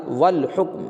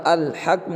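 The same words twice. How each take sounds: First: "والحکم" said wal-hukm; joined reading, silent alif. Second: "الحکم" starting on al, without wa; wrong reading with alif. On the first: Teacher giving the reading, slow wal-hukm for "والحکم". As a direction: start "والحکم" on wa, straight into L. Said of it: "یہاں پر کیا بولیں؟". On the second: Teacher rejecting a reading, "الحکم" as al-hakm. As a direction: open "الحکم" on a sounded A, al-hakm. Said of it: "یہاں پر الحکم نہیں". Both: Shown as a demonstration.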